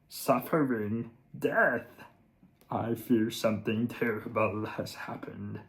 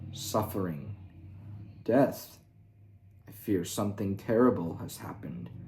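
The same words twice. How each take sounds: First: It is said in a comic Kermit-Yoda voice. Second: It is said in a serious, straight voice.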